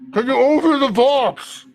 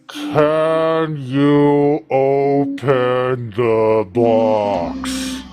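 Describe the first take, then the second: First: It is said at a normal speed. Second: It is said very slowly.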